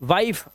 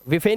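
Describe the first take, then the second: First: It is one syllable with a long vowel. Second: It is two syllables with a final vowel. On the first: The speaker calls it right. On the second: The speaker calls it wrong.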